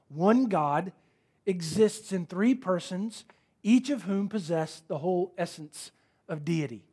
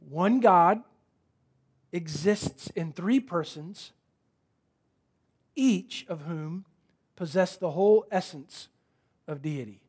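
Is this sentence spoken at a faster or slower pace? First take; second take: faster; slower. First: The sentence is spoken at a normal, quicker pace. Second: The sentence is spoken at a noticeably slower pace.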